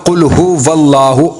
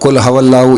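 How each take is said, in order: First: The second word begins with a hu sound. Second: The second word begins with a ha sound. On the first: The speaker calls it right. "उसको बोलना कुल हुवल्लाहु" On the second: The speaker calls it wrong. "या कुल हवल्लाहु"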